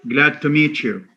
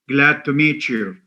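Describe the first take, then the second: The two takes are said the same way.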